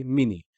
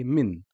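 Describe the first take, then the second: First: "mini" with a short i after N; kasra after N. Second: "min" ending on N, one syllable; stop on the N. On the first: Teacher showing the kasra version, final i. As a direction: add a second syllable ni in "mini". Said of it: "Here we say mini". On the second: Teacher showing the stop, closed syllable. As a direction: halt "min" at the N. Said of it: "stop at the n sound". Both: Shown as a demonstration.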